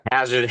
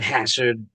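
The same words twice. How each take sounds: First: Hazard said with a buzzing z in the middle. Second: Hassard said with a hissed s in the middle. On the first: Member shows how he says his surname, Hazard with a z. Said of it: "I've always said Hazard". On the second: Member shows the technical British surname, Hassard with an s. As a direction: make the middle consonant of Hassard an unvoiced ess. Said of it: "technically, I think it's pronounced". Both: Shown as a demonstration.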